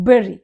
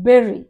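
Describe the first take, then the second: First: The first vowel sounds like 'berry'. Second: The same.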